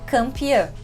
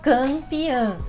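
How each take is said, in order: First: The word is said in a relaxed, natural way. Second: The word is said in a forced, exaggerated way. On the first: "falando de uma maneira um pouco mais natural" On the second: "eu tô falando meio forçado"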